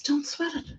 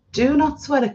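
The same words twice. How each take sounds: First: Aunt's advice, high and hushed; retold hushed advice. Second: "Do not" said as two separate words, pitched up; retold emphatic repeat. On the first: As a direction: softly imitate an aunt's reassurance, pitched up. Retelling aunt's advice, first take. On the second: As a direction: spell out "Do not" firmly and higher, imitating an aunt. Aunt repeats advice more firmly.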